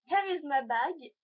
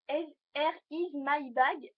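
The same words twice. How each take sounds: First: Slow, deliberately bad English accent, a bit louder; hammed-up English accent, words spaced out. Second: Very slow, stretched bad English accent, a bit louder; bad English accent, drawn out. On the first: Viewer asked for a what's-in-my-bag, mock English accent. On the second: Repeating her bag intro, extra slow mock English accent. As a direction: drag each word out in a mock English accent. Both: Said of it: "un accent anglais pourri".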